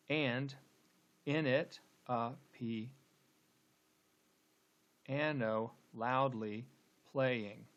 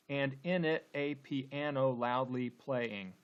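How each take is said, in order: First: Very slow, split by long pauses between feet; halting scansion, "playing" set apart at the end; scanning the meter. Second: Slow, evenly measured verse; deliberate syllable-by-syllable reading; syllable-counting reading. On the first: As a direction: break up "and in it a piano" as if marking each beat. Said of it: "let's go ahead and, and scan". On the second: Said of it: "let's count the number of syllables". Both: Shown as a demonstration.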